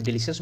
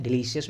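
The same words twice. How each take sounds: First: डिलीशियस with a sh sound, delishus; first pronunciation. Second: डिलीशियस with s and i-a, delisias; other pronunciation. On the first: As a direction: say डिलीशियस as de-li-shus. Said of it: "दो तरीके से आप इसको प्रोनाउंसिएट कर सकते हो". (डिलीशियस को 'डिलीशस' बोलना) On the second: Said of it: "अगर आप अमेरिकन इंग्लिश में बोलोगे". (डिलीशियस को 'डिलीसियस' बोलना) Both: Shown as a demonstration.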